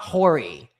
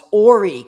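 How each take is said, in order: First: The word begins with an H sound. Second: The word begins without an H sound. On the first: The speaker calls it wrong. "It's not Horry" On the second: The speaker calls it right. "The H is silent"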